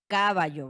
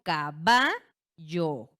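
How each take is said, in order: First: The stress is not on the middle syllable. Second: The stress is on the middle syllable. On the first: The speaker calls it wrong. "Yo no pronuncio esta palabra como caballo" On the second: The speaker calls it right. "la sílaba tónica recae en ba"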